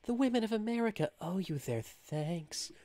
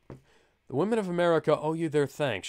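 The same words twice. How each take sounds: First: It is read in a put-on seductive character voice. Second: It is read in the narrator's plain voice. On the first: The speaker calls it right. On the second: The speaker calls it wrong.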